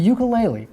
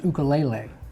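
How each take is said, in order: First: The word has its everyday English pronunciation. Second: The word has its original Hawaiian pronunciation.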